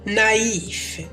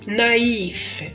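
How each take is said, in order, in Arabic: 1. الحروف الصوتية الوسطى تُنطق كصوتين. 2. الحروف الصوتية الوسطى تُنطق كصوتين.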